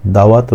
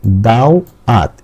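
First: Rhyme recitation. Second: দাও, then আত, drawn out slowly; split into syllables. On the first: Teacher reading own rhyme, দাওয়াত recited unbroken. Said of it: "আমি ছড়াটা একটু পাঠ করছি". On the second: Teacher separating two syllables, slow দাও and আত. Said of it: "দুইটা অক্ষর আলাদা করছে". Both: Shown as a demonstration.

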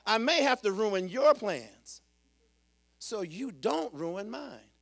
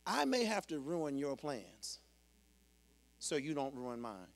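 First: Loud, higher preaching cry; emphatic, raised sermon voice; forceful proclamation. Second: Said in the usual way. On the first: Real, not acted. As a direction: proclaim it boldly from the pulpit. Repeats line as a proclamation.

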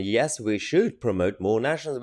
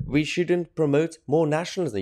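First: Firm rebuttal leaning on "should"; emphatic "should" at the usual pitch; stress on should. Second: Higher-pitched quote of an opponent; mildly mocking higher-pitched quote; quoted objection. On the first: Real, not acted. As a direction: contradict her, stressing "should". Host rebuts the quoted claim. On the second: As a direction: repeat her claim in a raised voice. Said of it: "is that she says".

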